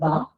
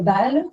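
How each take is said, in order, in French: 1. Le son consonantique final du mot est omis. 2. Le mot se termine par son son consonantique final. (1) "omettent les fins de mots" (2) "Ils ne vont pas dire balle"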